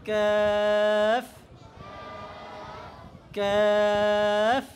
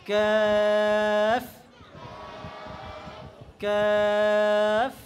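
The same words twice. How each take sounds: No difference in how they are said.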